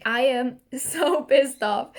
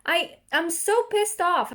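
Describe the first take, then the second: First: "so" stretched, laugh breaking through a slow complaint; laughing while angry. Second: Said in the usual way. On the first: Real, not acted. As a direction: say you're furious but laugh. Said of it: "I'm smiling, I'm laughing".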